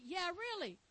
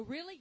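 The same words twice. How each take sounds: First: "really" falling at the end; "Yeah, really" closed with a downward tune; confirming answer. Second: Doubting question with a rising end; "Really" tipped upward as a question; questioning rise. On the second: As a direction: ask "Really" with the pitch lifting. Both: Acted. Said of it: "people will go".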